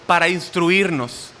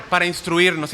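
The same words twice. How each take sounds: First: "para instruirnos" said slowly, every syllable weighed; stressed slowly. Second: Said in the usual way. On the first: Shown as a demonstration. Preacher stressing his fourth point to the congregation, slow and weighty. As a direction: drag out "para instruirnos" for emphasis.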